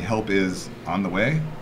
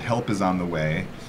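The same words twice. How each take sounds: First: The phrase is said with a marked inflection. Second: The phrase is said with a flat tune. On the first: The speaker calls it right. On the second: The speaker calls it wrong.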